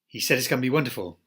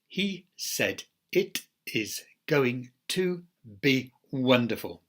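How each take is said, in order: First: Words are squeezed together into very reduced sounds. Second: Every word is said fully and separately. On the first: "But the jungle form is" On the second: "Those are greenhouse forms"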